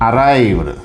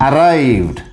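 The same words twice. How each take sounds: Both takes have the same delivery.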